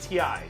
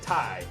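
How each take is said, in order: First: It is said as the two letters T and I. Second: It is said as one word rhyming with tie. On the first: Everyone else said it this way. "Everybody else was saying T I" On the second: A British person said it this way. "the British guy, said Ty"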